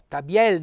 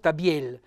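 First: The stressed final E is open. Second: The stressed final E is closed. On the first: The speaker calls it right. "l'accento della voce cade sulla E, per di più è E" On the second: The speaker calls it wrong.

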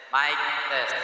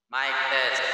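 Both takes have the same delivery.

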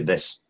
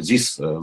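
First: It is said with a native English th sound. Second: It is said with a heavy Russian accent. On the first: The speaker calls it right. "чтобы его правильно произнести" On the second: The speaker calls it wrong. "русским this"

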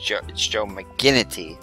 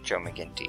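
First: The name is said with a full 'i' syllable before the 't'. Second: The name is said without a full 'i' syllable before the 't'. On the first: The speaker calls it right. "It's Joe McGinnity" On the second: The speaker calls it wrong. "not Joe McGinnity, ... I was pronouncing it wrong"

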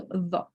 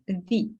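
First: The vowel is a short, open 'uh' sound. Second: The vowel is a narrower 'ee' sound. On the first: "Не просто the" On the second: "стає трошки такий вущий звук"

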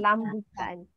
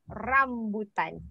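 First: The word begins with an L sound. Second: The word begins with an R sound. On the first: The speaker calls it wrong. "Because always lambutan" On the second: The speaker calls it right. "please practice your capital letter R"

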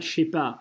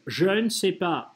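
First: The word 'ne' is dropped entirely. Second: The word 'ne' is clearly pronounced. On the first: This is casual everyday speech. "Просто говорят «je sais pas»" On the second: This is the standard normative form. "речевым нормативным вариантом высказываться «je ne sais pas». Вот так вот"

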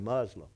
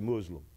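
First: The word has a Southern American pronunciation. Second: The word has a native-style pronunciation. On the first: This is how locals in the audience say it. The speaker calls it wrong. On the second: This is how Muslims themselves say it. The speaker calls it right.

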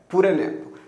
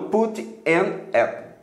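First: The t is a tap and the words run together. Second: The t is clear and the words are separated. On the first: The speaker calls it right. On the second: The speaker calls it wrong.

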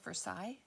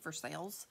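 First: The ending sounds like 'sigh', French style. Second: The ending sounds like 'sail', like 'for sale'. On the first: This is the name of the place in France. "spelled like Versailles in France" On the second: This is the local name of the town in Kentucky. "in Kentucky, we say Versailles. So it sounds like for sale"

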